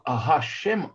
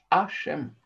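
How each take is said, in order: First: The word begins with an audible h sound. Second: The word begins directly with a vowel. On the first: God is blessed. The speaker calls it right. "очень важно проводить, да, правильно произносить букву гей" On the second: Someone is guilty. The speaker calls it wrong. "иначе у вас получится, что какой-то барух, он в этом виноват"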